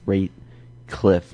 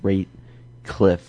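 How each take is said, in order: First: The name is said with a K sound. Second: The name is said with a K sound.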